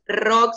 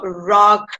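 First: The R is a Spanish-style tapped sound. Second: The R is a strong English-style sound. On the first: The speaker calls it wrong. "la R no es rock" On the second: The speaker calls it right. "sino rock"

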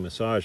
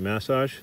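First: It is said with an American pronunciation. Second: It is said with an Australian pronunciation. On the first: "In America they say massage" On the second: "In Australia we say massage"

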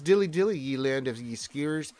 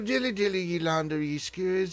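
First: It is read in the speaker's ordinary voice. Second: It is said in a put-on English accent.

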